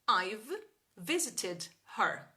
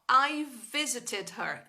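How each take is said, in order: First: A small break separates I've from visited. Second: The two v sounds merge into one. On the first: The speaker calls it wrong. "eu tô respirando entre as palavras" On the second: The speaker calls it right. "V e V, eu vou juntar o som"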